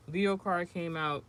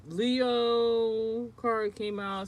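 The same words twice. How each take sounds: First: Said in the usual way. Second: A slow, higher reveal of the card; drawn-out announcement. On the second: Acted. Reading a tarot card aloud to viewers, slow drawn-out announcement. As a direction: stretch every word slowly and lean on Leo.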